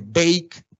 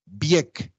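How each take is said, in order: First: BAKE with English 'ey' glide; English-style BAKE, vowel gliding to 'i'; English diphthong. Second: BIEK with an 'ie' glide; Creole diphthong. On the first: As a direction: say BAKE as 'beyk'. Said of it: "cualquier diptongo A en inglés". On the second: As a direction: say BIEK as 'byek'. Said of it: "todas esas en criollo sistemáticamente". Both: Shown as a demonstration.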